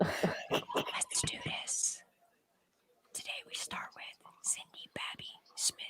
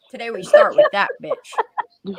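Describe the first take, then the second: First: Breathy ASMR whisper. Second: Said in the usual way. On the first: Pretend. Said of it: "Can you do your A S M R voice?". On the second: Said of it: "No, I don't wanna do it".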